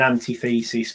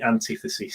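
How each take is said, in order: First: It is split like anti plus thesis. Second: It is said as one word, an-TI-thesis. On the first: The speaker calls it wrong. "some people are saying antithesis, but yeah, there's no hyphen" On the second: The speaker calls it right. "So it's definitely antithesis"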